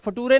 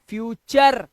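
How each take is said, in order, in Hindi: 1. बीच की ध्वनि सादा t है। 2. बीच की ध्वनि ch है। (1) "ये फटूरे नहीं है" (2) "ये है फ्यूचर"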